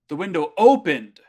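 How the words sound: The word opened is stressed. The window opened, contrasting with something that did not. "it would be putting the emphasis on akimashita"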